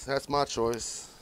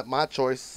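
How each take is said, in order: First: Slow, deliberate "That's my choice"; slow emphatic. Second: Said in the usual way. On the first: Real, not acted. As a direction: lean on "my" and stretch it out.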